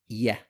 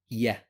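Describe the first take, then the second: First: The letter is said with a light, thin vowel. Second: The letter is said with a light, thin vowel.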